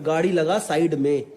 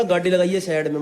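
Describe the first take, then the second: First: Said in the usual way. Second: Imitated Haryanvi command; thick Haryanvi accent. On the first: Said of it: "मतलब". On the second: Quoting the stranger's order to pull over, Haryanvi accent. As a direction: put on broad Haryanvi vowels. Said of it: "एकदम खड़ी हरियाणी में बोला".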